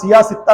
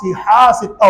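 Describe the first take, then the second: First: The first word is said without an h sound. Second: The first word is said with an h sound. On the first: The speaker calls it wrong. "सिया सित्ता नहीं होता" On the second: The speaker calls it right. "सिहा सित्ता होता है"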